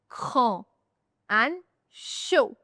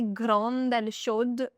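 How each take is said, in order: First: The final D sound is silent. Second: The final D sound is pronounced. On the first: The speaker calls it right. "we say grand and chaud. So D is silent" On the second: The speaker calls it wrong. "We don't say"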